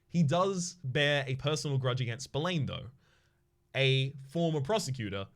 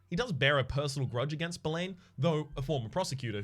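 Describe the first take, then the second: First: The break comes after 'though'. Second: The break comes before 'though'. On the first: The speaker calls it right. "There you go" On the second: The speaker calls it wrong.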